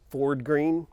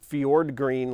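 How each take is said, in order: First: The first word starts with a plain f sound. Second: The first word starts with an fy sound. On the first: The speaker calls it wrong. "it's really easy for me to say it's Ford green, which it is not Ford green" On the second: The speaker calls it right. "I have to be careful about how to pronounce it. It is fjord green, like the fjords in Norway"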